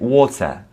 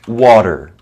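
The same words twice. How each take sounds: First: The middle T is pronounced as a clear T. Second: The middle T sounds soft, close to a D. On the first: "the posh uh, British English, they will say it" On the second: "in American English, the T is kind of like between a T and a D"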